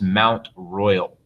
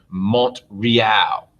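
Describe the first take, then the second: First: It is said in an English accent. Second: It is said in a French accent.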